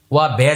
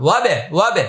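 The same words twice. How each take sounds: First: ওয়া বে broken into two separate syllables; wrong split reading. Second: ওয়াবে said as one smooth joined word; correct joined reading. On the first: Teacher shows students the wrong way first, split apart. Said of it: "যেন না হয়". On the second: Teacher then shows students the right way, joined smoothly. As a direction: run ওয়াবে together without a break. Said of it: "এভাবে". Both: Shown as a demonstration.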